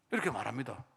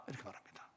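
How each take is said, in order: First: Said in the usual way. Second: Breathless whisper of the tag line; whispered narration; whispered aside. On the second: Shown as a demonstration. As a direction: drop to a whisper.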